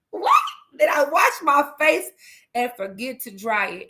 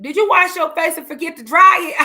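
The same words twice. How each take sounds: First: High incredulous echo, easing down at the end; retold disbelief. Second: Put-on loud, high-pitched kid's question; imitated baffled child. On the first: Mom echoes child's odd question, acted incredulity. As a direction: repeat the question back, amused and astonished. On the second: Child questions crying mom's wet face, mimicked loud bafflement.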